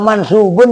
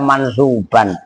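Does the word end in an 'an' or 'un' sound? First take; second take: un; an. First: The word ends with an 'un' sound. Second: The word ends with an 'an' sound. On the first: The speaker calls it right. "orang mansubun" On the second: The speaker calls it wrong. "dibaca mansuban"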